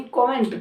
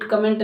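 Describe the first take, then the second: First: कमेंट as kaw-ment; open O. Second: कमेंट as kuh-ment; short first vowel. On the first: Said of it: "कमेंट करें, ध्यान रखें". (कमेंट को कॉमेंट बोलें) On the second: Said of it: "कमेंट नहीं". (कमेंट में छोटा अ) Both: Shown as a demonstration.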